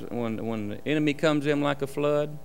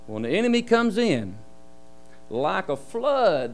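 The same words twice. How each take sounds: First: It runs on with no pause after "in". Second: There is a pause after "in". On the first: The enemy comes in like a flood. "how does it go?" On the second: The Spirit comes like a flood. "let's say it like this"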